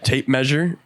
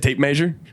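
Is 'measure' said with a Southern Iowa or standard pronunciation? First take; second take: standard; southern. First: Measure is said the standard way. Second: Measure is said the Southern Iowa way.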